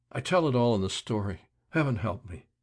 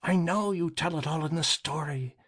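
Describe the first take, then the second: First: Despairing author. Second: Grind the words out at him, lightly rasped; rasping deputy. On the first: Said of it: "he moaned". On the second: Deputy to the author, insisting, a light rasp. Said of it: "rasping voice of Burns". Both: A narrator's reading.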